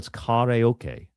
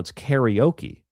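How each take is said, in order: First: Karaoke is said with a Japanese-style pronunciation. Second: Karaoke is said with an English-style pronunciation.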